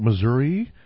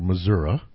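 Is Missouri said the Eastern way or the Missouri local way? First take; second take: Eastern; Missouri local. First: It is said the way Easterners say it. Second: It is said the way Missouri locals say it. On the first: "we here in the East call it Missouri" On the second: "That's the way they say it there"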